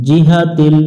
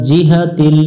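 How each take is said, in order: No difference in how they are said.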